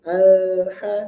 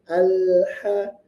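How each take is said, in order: The two takes are said the same way.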